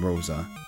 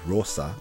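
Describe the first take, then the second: First: The name is pronounced the English way. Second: The name is pronounced the Spanish way.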